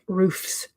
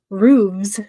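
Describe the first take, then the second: First: The ending is said with an F sound. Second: The ending is said with a V sound. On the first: "than like roofs" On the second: "I think I say it more with a V"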